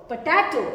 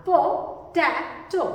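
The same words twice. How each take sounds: First: Said in the usual way. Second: "पोटैटो" drawn out as पो, टै, टो; syllable by syllable. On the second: Shown as a demonstration. Teacher has learners repeat, "पोटैटो" slow and segmented. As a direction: say "पोटैटो" slowly, one syllable at a time. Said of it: "आपने बोला".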